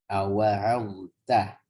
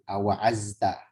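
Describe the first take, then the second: First: The middle consonant is a heavy emphatic dh. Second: The middle consonant is a light z. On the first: The speaker calls it right. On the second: The speaker calls it wrong.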